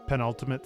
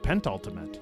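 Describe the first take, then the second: First: The word has no t sound after 'pen'. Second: The word has a t sound after 'pen'. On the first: The speaker calls it right. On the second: The speaker calls it wrong.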